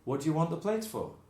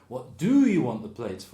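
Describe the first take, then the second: First: Some words are run together and shortened. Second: Every word is said fully, without reductions.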